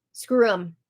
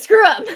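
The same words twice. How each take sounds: First: Said in the usual way. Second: High, loud, laughing exclamation. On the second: Retold or imitated. Retelling Angela's defiant words, breaking into laughter. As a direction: blurt it out high and crack up.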